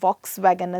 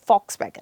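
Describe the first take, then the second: First: The word begins with a V sound. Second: The word begins with an F sound. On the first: The speaker calls it wrong. "ਅਸੀਂ ਕਹਿੰਦੇ ਹਾਂ" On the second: The speaker calls it right. "Exact ਇਹਦਾ ਉਚਾਰਨ"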